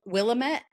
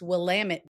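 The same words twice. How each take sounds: First: The stress falls on the last syllable. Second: The stress falls on the second syllable. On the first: The speaker calls it wrong. "Everybody mispronounce it as" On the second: The speaker calls it right. "it's Willamette. Damn it!"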